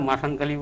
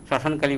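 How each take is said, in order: First: The first word begins with a plain m sound. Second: The first word begins with an shm sound. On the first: The speaker calls it wrong. "উচ্চারণের চেঞ্জে ভুলের কারণে সেটা শ্মশানের জায়গায় মাসান হয়ে থাকে" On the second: The speaker calls it right. "শ্মশান কালী বলে থাকি"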